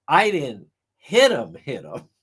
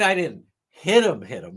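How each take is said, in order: First: Mocking voice with dropped echo; mocking imitation. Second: Mocking echo fading to a whisper; mocking imitation again. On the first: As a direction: mimic the lawyer's mockery. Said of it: "Hank Brennan mocks her". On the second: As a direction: repeat the lawyer's mockery. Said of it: "I mean".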